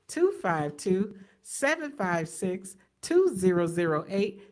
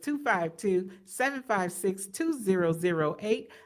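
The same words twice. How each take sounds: First: The number is read a little more slowly. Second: The number is read at normal speed.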